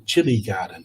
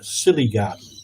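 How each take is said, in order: First: The first word begins with a 'ch' sound. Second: The first word begins with an 's' sound. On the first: "it was a chili garden" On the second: "he was pronouncing it as a silly garden"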